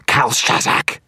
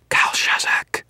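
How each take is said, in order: First: High, loud rasping screech; strained shrieking incantation. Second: Forceful hissed whisper; voiceless, menacing incantation. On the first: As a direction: screech the final summons. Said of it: "his voice rising to a screech". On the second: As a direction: whisper it like a summoning. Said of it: "Victor whispered". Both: A narrator's reading.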